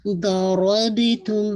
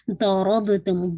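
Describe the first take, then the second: First: ضَرَبْتُمْ very slow, ب bounced with qalqala, ر and ض heavy; slow tajweed demo of ضَرَبْتُمْ. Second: ضَرَبْتُمْ recited slowly, ض and ر heavy and full-mouthed; heavy Quranic recitation of ضَرَبْتُمْ. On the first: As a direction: recite ضَرَبْتُمْ slowly with an echoing ب. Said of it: "با پہ قلقلہ". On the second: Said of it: "پورا full of mouth کے ساتھ". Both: Shown as a demonstration.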